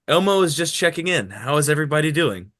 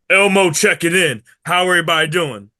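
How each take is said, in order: First: It is read in his normal voice. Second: It is said in a put-on Elmo voice.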